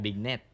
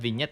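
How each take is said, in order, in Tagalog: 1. Nagsisimula ang salita sa tunog B. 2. Nagsisimula ang salita sa tunog V. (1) "hindi po yung bignet" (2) "Yung tamang bigkas po dyan"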